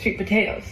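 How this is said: The stress is on potatoes.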